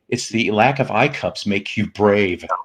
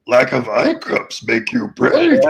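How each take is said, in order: First: It is said in his normal voice. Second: It is said in a Yoda impression.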